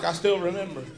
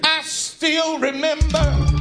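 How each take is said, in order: First: It is said weakly, with little energy. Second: It is said forcefully, from deep down. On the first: The speaker calls it wrong. "you didn't say it right. You were like" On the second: The speaker calls it right. "You got to get it from down here"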